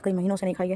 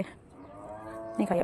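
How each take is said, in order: First: Said in the usual way. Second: Very slow whispered repeat of नहीं खाई है, much softer; whispered echo. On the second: Real, not acted. Vlogger echoing to herself that she hasn't eaten the leaves, slow whisper. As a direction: trail off into a slow whisper, nहीं खाई है drawn out.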